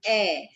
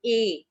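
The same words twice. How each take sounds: First: "A" as an open "eh"; accent grave sound. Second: "A" as a closed "ay"; accent aigu sound. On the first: Teacher contrasting grave with aigu, open vowel. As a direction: say "A" wide, like the Hindi ai matra. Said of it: "in grave, we have the sound". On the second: Teacher answering a student on accent aigu, closed vowel. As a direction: say "A" tight, like the Hindi e matra. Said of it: "in ague, we have the sound". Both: Shown as a demonstration.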